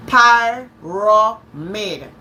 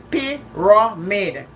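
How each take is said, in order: First: "Pyramid" slowly as PIE-raw-mid; sounded out. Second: "pyramid" slowly as PEE-ruh-mid; British version sounded out. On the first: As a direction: break "Pyramid" into three drawn-out syllables, first one PIE. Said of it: "The pronunciation here is telling me". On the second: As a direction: draw out "pyramid" syllable by syllable, first one PEE. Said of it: "it's P I R U H M I D". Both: Shown as a demonstration.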